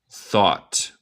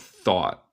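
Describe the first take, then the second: First: The final T is clearly released. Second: The final T becomes a glottal stop. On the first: "Tú puedes decir thought y está bien" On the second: "como yo digo"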